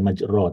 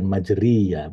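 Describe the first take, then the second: First: The vowel after the r is o. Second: The vowel after the r is i. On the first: "bukan majro" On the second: "bukan majriya"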